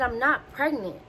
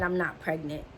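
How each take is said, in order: First: Firm, higher-pitched stress on "not"; insistent denial. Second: Said in the usual way. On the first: Retold or imitated. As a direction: retell an exasperated, emphatic denial. Repeats denial after being doubted.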